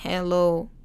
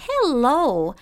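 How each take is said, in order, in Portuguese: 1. O cumprimento é plano e mecânico, sem vida. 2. O cumprimento é vivo, animado e alegre. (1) "Não fica aí que nem um robozinho, assim" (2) "deixa a sua entonação bem alegre, bem feliz, pra cima"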